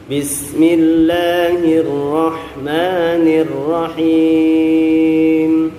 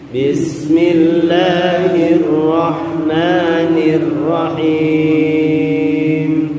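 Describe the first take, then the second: No difference in how they are said.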